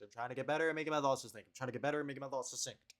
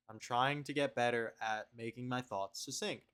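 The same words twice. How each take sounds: First: Faster retry. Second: Said in the usual way. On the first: Shown as a demonstration.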